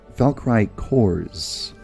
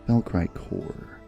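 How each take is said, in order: First: The last word ends with an s sound. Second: The last word ends without an s sound. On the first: "do you pronounce the S?"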